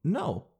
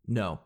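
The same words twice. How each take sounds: First: A hesitant "No." that lifts up at the end; rising no. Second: A flat "No." that drops low. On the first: The wrong way to refuse a clerk, unsure rising no. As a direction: let "No." go up like a question. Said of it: "hear that no go up". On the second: Vlogger showing how to turn down a clerk, low firm no. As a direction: say "No." short and low so it ends the talk. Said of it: "See how I did it?". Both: Shown as a demonstration.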